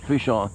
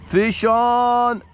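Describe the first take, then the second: First: Said in the usual way. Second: High, loud fish-on call; excited call. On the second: Real, not acted. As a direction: shout it out as the fish hits. Hooked fish, shouted out.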